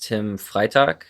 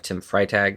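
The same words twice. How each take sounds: First: The name is said with German pronunciation. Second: The name is said with English pronunciation. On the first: "that's the way it's pronounced in German" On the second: "just because it's easier for most people to pronounce it that way"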